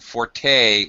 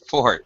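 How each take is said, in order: First: The word ends with a long E sound. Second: The word ends without a final vowel sound. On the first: It is a musical term for loud. "pronounced with that long E sound" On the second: It means a strong point. "don't say forte"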